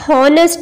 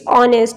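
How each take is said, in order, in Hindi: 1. इस शब्द की शुरुआत H की आवाज़ से होती है। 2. इस शब्द की शुरुआत सीधे एक स्वर से होती है। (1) "हॉनेस्ट नहीं कहेंगे" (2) "इट्स ऑनेस्ट"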